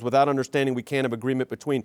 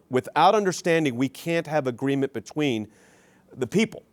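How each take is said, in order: First: It is said at normal speed. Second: It is said very slowly.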